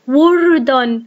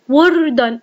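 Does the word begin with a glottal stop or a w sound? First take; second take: w sound; w sound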